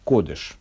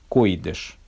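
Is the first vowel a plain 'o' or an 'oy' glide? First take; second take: o; oy. First: The first vowel is a plain 'o'. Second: The first vowel is an 'oy' glide.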